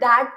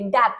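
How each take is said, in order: First: It begins with a voiced 'th' sound. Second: It begins with a hard 'd' sound. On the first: "दैट में द की आवाज आ रही है" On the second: "ये वाला ड बोलेंगे"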